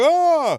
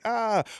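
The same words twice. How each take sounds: First: It is a strong, pained reaction. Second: It is a mild, small reaction.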